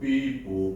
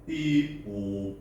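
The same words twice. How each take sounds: First: The siren sound is short and quick. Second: The siren sound is long and drawn out.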